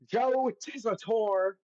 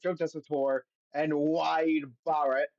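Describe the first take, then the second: First: Slow, drawn-out British accent, pitched higher; a mock British announcer stretching the name; bad British accent. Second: A hint of a bad British accent on the names; a mock British announcer reading the names. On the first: Host says the commentator's name in a bad British accent. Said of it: "I don't know why I say his name like that". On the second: Host introduces the commentators in a bad British accent. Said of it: "that was a bad British accent". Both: Shown as a demonstration.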